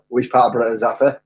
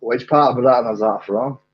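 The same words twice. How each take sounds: First: Reworked Glaswegian accent attempt; Glaswegian, second try. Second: A lightly put-on Glaswegian accent; attempted Glaswegian. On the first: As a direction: have another go at Glaswegian. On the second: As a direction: ask it in rough Glaswegian. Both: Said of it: "that was hopefully Glaswegian".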